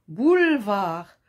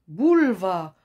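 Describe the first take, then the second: No difference in how they are said.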